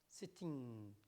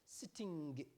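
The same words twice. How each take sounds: First: The word ends with a plain n sound. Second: The word ends with an added hard g. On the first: "will be using the wrong sounds and say sitting" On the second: "sometimes we add the J at the end"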